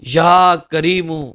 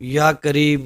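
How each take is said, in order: First: It is said in a begging, pleading way. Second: It is said plainly, without pleading. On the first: The speaker calls it right. "बल्कि या करीमू" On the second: The speaker calls it wrong. "इस तरह नहीं पढ़ना"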